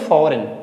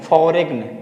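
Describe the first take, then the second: First: No g sound is heard before the n. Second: A g sound is heard before the n. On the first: The speaker calls it right. "जी को हम उच्चारण नहीं करेंगे" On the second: The speaker calls it wrong. "यहाँ पे जी को वो प्रोनाउंसिएट करते हैं, लेकिन ये गलत है"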